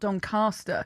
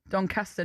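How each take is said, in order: First: It is said with a southern English accent. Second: It is said with a northern English accent. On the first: The speaker calls it wrong. "not Doncaster" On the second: The speaker calls it right. "my mum is from Yorkshire"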